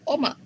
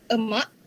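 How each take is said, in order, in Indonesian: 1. Vokal pertama adalah o. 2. Vokal pertama adalah schwa. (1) "Untuk dialek Negeri Sembilan" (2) "bahasa Melayu Standard"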